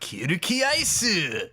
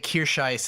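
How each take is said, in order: First: The name is said as in the Japanese original. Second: The name is said as in the English dub. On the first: This is how the original version says the name. The speaker calls it right. "instead of Kirkiaisu" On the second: This is how the dubbed version says the name. The speaker calls it wrong. "they say Kirscheiss"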